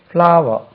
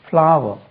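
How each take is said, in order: No difference in how they are said.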